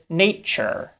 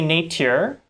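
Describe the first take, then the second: First: The middle consonant is a ch. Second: The middle consonant is a true t. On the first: "instead I said nature" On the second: "I didn't say nature"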